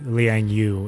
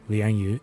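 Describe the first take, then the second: First: The name is said with English-style sounds. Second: The name is said with Chinese sounds and tones. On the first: The speaker calls it wrong. "It's not just like Liang Yu" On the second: The speaker calls it right. "pronounces certain names in uh, the Chinese names properly"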